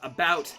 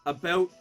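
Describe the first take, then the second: First: It is said with an American vowel. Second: It is said with a Canadian vowel. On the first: "instead of" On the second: "I say"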